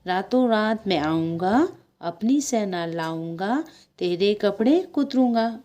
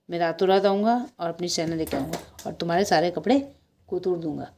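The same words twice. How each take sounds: First: Singsong chant with rising line ends; chanted song. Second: Said in the usual way. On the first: A narrator's reading. Mouse sings a threat to the shopkeeper, singsong chant. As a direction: chant it like a little taunting rhyme. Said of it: "नटखट चूहे ने गाना गाया".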